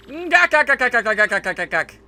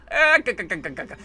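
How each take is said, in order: First: High gak gak cackle; villain cackle. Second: Weak Popeye-style chuckle; a rough try at Popeye's laugh. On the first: Acted. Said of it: "sounds like Popeye when he laughs". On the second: Retold or imitated. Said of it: "Not the best Popeye impersonation".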